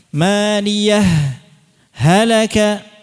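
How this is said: A short stop comes between the two words. "Maka cara mengidharkannya itu dijeda"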